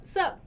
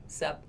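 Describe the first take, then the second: First: "Sup" pitched up high; bright sup. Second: "Sup" dropped low and softer; low answering sup. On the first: Teacher acting out a sup exchange. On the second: Teacher answering her own sup. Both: Shown as a demonstration. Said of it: "is the answer to".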